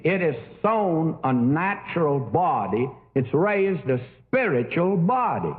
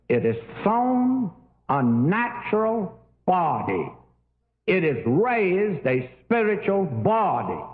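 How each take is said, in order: First: Emphasis laid on "spiritual"; stress on spiritual. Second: Slow, deliberate, weight falling on "body"; stress on the noun. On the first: Scholar reading his paper on resurrection, stress on "spiritual". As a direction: lean on the adjective "spiritual". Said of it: "he put the emphasis on spiritual". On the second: Greek scholar correcting a colleague's reading, slow stress on "body". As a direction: spell it out slowly, landing firmly on "body". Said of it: "the strong word is the noun". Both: Retold or imitated.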